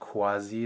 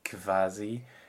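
First: The word begins with a kw sound. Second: The word begins with a kv sound. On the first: "not KW like it would be in Italian" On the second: "not a KV like it would be in German"

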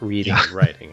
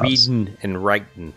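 First: The final g sounds are fully pronounced. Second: The final g sounds are dropped. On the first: The speaker calls it wrong. "not reading and writing" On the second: The speaker calls it right. "It was apostrophe"

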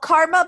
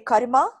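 First: The name is said with English pronunciation. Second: The name is said with Arabic pronunciation.

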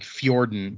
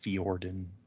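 First: The name begins with a gliding 'fy' sound. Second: The name begins with a separate 'fee' syllable. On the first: "The way I was saying it is like Nordic" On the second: "it's just F-E-E, and then or"

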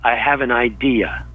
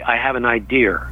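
First: It is said in a plain, general accent. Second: It is said in a New York accent.

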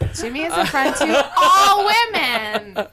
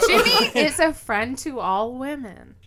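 First: It is said loudly. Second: It is said at normal volume.

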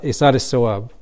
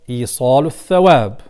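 First: It is said the Pakistani and Indian way. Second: It is said in an Arabic pronunciation.

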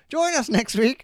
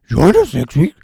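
First: It is said in his normal voice. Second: It is said in a Scooby-Doo voice.

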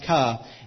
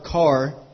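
First: The final r is dropped. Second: The final r is pronounced. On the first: The speaker calls it wrong. "pronounced ka" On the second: The speaker calls it right. "the word car"

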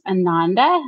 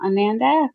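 First: The name does not rhyme with Amanda. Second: The name rhymes with Amanda. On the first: The speaker calls it right. "it's actually pronounced Ananda" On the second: The speaker calls it wrong. "not Ananda. ... It rhymes with Amanda"

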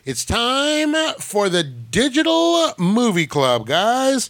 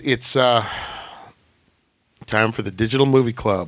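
First: It is said with lots of energy. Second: It is said with little energy.

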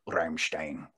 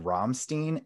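First: The name is said with a German pronunciation. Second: The name is said with an American pronunciation. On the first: The speaker calls it right. "It was like the biggest eye roll. He was like, "It's Rammstein."" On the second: The speaker calls it wrong. "the interviewer was American, and he said Rammstein, and it was a no-go"

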